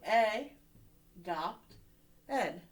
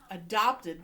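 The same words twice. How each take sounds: First: "A", "dopt", "ed" with a pause after each; split by syllable. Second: Said in the usual way. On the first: Shown as a demonstration. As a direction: sound out "A, dopt, ed" piece by piece. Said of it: "we're gonna split it here". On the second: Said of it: "When somebody is".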